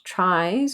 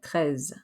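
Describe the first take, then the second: First: It sounds like the English word 'tries'. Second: It sounds like neither English word. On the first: The speaker calls it wrong. "not tries or trees" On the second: The speaker calls it right. "but treize"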